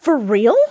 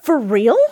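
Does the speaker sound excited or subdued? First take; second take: excited; excited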